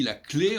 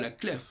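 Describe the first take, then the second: First: There is no final f sound. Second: A final f sound is pronounced. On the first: The speaker calls it right. "on dit la clé" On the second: The speaker calls it wrong. "on ne dit pas la clef"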